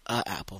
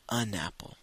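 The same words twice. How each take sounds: First: "a apple" said as the wrong form; the mistake "a apple", no n before the vowel. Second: "an apple" with a clear n before apple; the right form "an apple", n linked on; correct an apple. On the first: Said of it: "Et non pas a apple". (la forme fautive « a apple ») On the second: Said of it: "il faut dire an apple". (la bonne forme « an apple » avec le n) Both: Shown as a demonstration.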